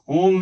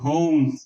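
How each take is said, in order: First: The vowel is a plain o without a glide. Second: The vowel ends with a slight oo glide. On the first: The speaker calls it wrong. "होम नहीं" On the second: The speaker calls it right. "हल्का सा ऊ जुड़ा हुआ है"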